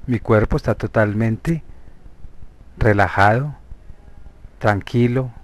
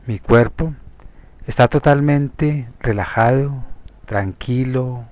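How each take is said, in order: Both takes have the same delivery.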